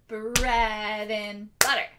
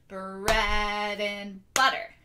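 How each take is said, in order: The two takes are said the same way.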